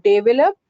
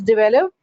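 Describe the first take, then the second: First: "develop" as DAY-ve-lup; "develop" with a long first vowel; wrong pronunciation. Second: "develop" as di-VEL-up; "develop" with a short first syllable; correct pronunciation. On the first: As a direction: stress the start of "develop". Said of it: "not develop". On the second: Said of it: "is develop". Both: Shown as a demonstration.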